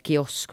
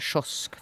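First: It is said with a Finland-Swedish pronunciation. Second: It is said with a Sweden-Swedish pronunciation. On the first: The speaker calls it wrong. "Man kan inte gå dit och säga kiosk" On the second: The speaker calls it right. "man måste säga kiosk"

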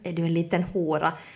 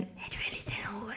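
First: It is spoken in a low, intense voice. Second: It is spoken in a whisper. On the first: It comes across as hot. The speaker calls it right. "sådär med låg röst, sådär med intensitet" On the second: It comes across as creepy. The speaker calls it wrong. "om han skulle viska det så skulle det bli kanske snäppet på psykopatiskt"

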